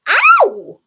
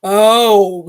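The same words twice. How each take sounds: First: High-pitched, very loud cry of pain; high loud yelp. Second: Loud, deep elephant bellow; big deep voice. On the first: Elephant bitten on the leg, yelping high and loud. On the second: Elephant bitten on the leg, bellowing in a deep voice. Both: A narrator's reading. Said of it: "in his big, deep voice".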